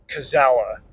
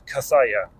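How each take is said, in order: First: The name is read with English letter sounds. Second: The name is read with Spanish letter sounds. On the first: The speaker calls it wrong. "The audiobook narrator just said Kazala" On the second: The speaker calls it right. "The proper pronunciation of that name is Kathaya"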